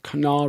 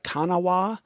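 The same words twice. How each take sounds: First: The name is pronounced in a different, local way. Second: The name is pronounced just as it is spelled. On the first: This is how local people say it. "I think they pronounce it the Kanawha River" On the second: This is how outsiders would read it. "It looks like Kanawha to the rest of us"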